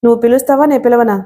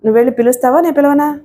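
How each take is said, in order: First: "నేను పిలవనా" falling at the end; firm question, voice not lowered, "నేను పిలవనా" falling; undeterred repeat. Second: Demanding question, pitched up on "నేను పిలవనా"; insistent question. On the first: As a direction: press the question, let "నేను పిలవనా" drop. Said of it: "కంఠం తగ్గించకుండానే అడిగాడు". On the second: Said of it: "మీరు మళ్ళీ గట్టిగా మాట్లాడుతున్నారు". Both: A narrator's reading.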